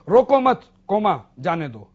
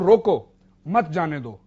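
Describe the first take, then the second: First: A pause comes right after 'mat'. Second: A pause comes right after 'roko'. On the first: Do not stop, let it go. "अब दूसरा मैं coma लगाता हूं दूसरी जगह" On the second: Stop, do not let it go. "अब इसमें मैं पहले कोमा लगाता हूं"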